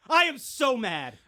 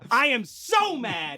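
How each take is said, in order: First: Slow, higher, deliberately spaced anger; stagey slow-burn complaint; slow mock fury. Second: Very slow, weight on so; hammed-up slow fury; slow drawn-out anger. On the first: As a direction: spell out the anger word by word. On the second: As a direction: drag it out like a sulking child.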